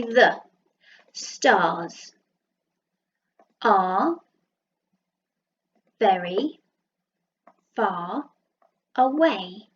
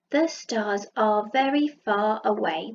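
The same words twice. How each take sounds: First: Each word split off with pauses; slow dictation, one word at a time. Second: Said in the usual way. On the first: Shown as a demonstration. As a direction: count the words out one at a time. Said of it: "gonna do some dots to remind me how many words". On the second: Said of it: "That's what he's thinking".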